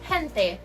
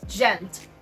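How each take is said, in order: First: It is said with a Spanish pronunciation. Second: It is said with a European Portuguese pronunciation. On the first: "In Spanish, the word gente is pronounced as" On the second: "In Portuguese from Portugal, they say"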